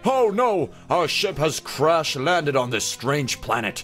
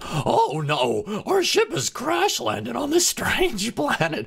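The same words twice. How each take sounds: First: The voice sounds fairly calm and not scared. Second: The voice sounds very scared and awkward. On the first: "I don't know if I like that voice very much" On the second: "He's really scared now and really awkward"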